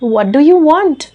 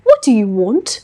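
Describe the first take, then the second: First: It is spoken in an Indian English accent. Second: It is spoken in a deep, throaty British accent. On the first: "Indian accent" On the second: "British English. गले से"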